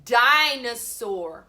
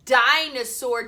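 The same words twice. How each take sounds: First: Dinosaur drawn out slowly and louder; slow sounded word. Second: Dinosaur at normal pace, louder; quick firm dinosaur after the D; sounding out D. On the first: Teacher to pupils, slow loud dinosaur. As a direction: stretch dinosaur so kids hear the D. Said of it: "It's a D". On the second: Teacher to pupils, firm dinosaur. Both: Shown as a demonstration.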